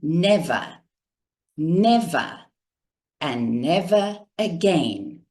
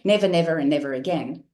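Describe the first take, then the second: First: The words come slowly with clear pauses between. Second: The words run together quickly without pauses. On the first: The speaker calls it right. "He went" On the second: The speaker calls it wrong. "He didn't say"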